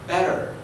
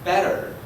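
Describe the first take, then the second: First: It is said in an American English accent. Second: The same.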